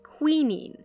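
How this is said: It is pronounced in the British way. "If you're a British listener, you're probably used to hearing that word pronounced quinine"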